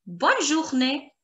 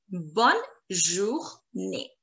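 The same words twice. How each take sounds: First: Said in the usual way. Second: Slow, low Bonne, jour, née with gaps; syllable by syllable. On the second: Shown as a demonstration. Teacher drills have a nice day, Bonne journée slowly split.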